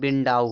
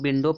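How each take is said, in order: First: The word ends with an 'ow' sound. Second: The word ends with an 'oh' sound. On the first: The speaker calls it right. "बिंडाउ हो जाएगा" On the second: The speaker calls it wrong. "इसको लोग विंडो पढ़ते हैं"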